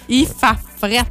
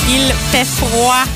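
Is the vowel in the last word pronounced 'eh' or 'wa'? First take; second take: eh; wa. First: The last word has an 'eh' vowel, like 'frette'. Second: The last word has a 'wa' vowel, like 'frwa'. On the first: It is casual, colloquial speech. The speaker calls it wrong. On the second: It is careful, standard speech. The speaker calls it right.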